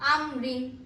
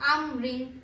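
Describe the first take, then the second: The two takes are said the same way.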